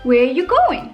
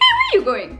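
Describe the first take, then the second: First: It is said in a general, calm accent. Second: It is said in a slightly hysterical South African Indian accent.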